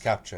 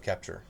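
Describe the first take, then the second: First: The word ends in an 'ah' sound without R. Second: The word ends in an 'er' sound with R.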